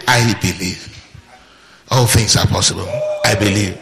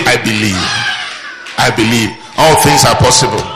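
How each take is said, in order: First: Softer, lower quiet confession; lower, softer calm declaration. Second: Bold confession. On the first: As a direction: say it calmly to yourself as settled fact. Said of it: "Just try and say". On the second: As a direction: proclaim it with full conviction. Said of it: "Just say". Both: Shown as a demonstration.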